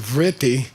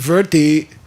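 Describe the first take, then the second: First: The word begins with a 'vri' sound. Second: The word begins with a 'ver' sound. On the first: The speaker calls it wrong. "which they mispronounce as vritti" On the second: The speaker calls it right. "The word verti"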